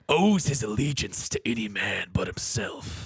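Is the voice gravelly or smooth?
gravelly. Murtagh's voice is deeper and gravelly.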